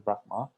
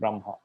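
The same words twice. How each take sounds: First: It is said the Sri Lankan way. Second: It is said the Myanmar way.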